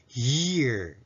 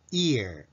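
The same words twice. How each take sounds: First: Year drawn out from a tight Y glide. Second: Ear drawn out from a pure ee vowel; ear without Y. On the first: Teacher giving the formal sound of year, Y onset. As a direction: say year slowly, squeezing the opening Y. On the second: Teacher giving the formal sound of ear, vowel onset. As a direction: say ear slowly with no glide in front. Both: Shown as a demonstration. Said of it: "が正式です".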